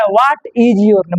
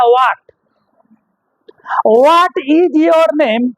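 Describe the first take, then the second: First: Said in the usual way. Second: Bihari English. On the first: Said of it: "लेकिन हम लोग बोलते हैं". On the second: Retold or imitated. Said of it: "Bihar वाला बोलता".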